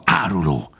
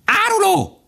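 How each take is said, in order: First: Restrained, venomous fox; hissed accusation. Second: Piercing, very high bird cry; crying magpies. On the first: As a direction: keep the insult down, bitter. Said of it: "sziszegte a róka". (sziszegve vádolva) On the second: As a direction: shriek the accusation from the treetops. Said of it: "kiáltották a szarkák a fákról". (szarkaként élesen kiáltva) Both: A narrator's reading.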